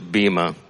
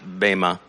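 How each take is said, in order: First: The word is said the way English speakers say it. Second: The word is said the way Israelis say it. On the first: "I've heard in English bema" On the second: "I think they pronounce it bema"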